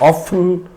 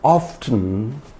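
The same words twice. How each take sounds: First: The T sound is left out. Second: A soft T sound is pronounced. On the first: "in place of often" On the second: "one can pronounce it with a soft T"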